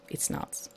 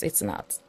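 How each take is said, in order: First: Whispered aside. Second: Breathy whispered aside. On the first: Sarcastic aside. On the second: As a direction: drop to a whisper. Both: Acted.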